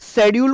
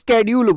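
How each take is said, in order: First: The word begins with a 'sh' sound. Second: The word begins with an 'sk' sound. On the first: This is the older British way. "तो British English में शेड्यूल और एजुकेशन बोला जाता था।" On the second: This is the newer American way. "अब American English पर shift कर रहे हैं।"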